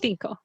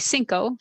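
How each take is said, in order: First: The first c is pronounced like th. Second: The first c is pronounced like s. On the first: This is how it is said in Spain. "Spain it'd be cinco" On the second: This is how it is said in Mexico. "Mexico it would be cinco"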